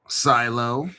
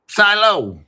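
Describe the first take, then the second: First: "Silo" asked with a rising tune; questioning silo. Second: "Silo" said louder and higher, falling firmly; confident silo. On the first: Reading a coin name off the list, asking. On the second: Reading a coin name off the list, settling it loudly. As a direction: announce "Silo" like the answer. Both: Shown as a demonstration.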